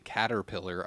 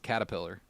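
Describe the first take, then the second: First: The second syllable sounds like 'ter', with an R. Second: The second syllable sounds like 'ta', with no R. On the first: "when people would s- like say caterpillar" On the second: "I put an A there instead of"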